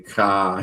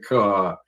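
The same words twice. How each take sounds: First: The word is said in a Chicago accent. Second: The word is said in a standard accent. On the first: "Chicago, they say car" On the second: "instead of car"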